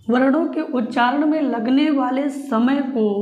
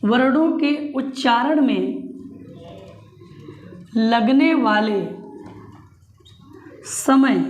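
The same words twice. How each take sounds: First: Said in the usual way. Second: Slow, word by word, for note-taking; slow dictation. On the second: Shown as a demonstration. Teacher dictating a definition to the class, slow and deliberate. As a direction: spell it out slowly so students can write. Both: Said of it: "note कर लो".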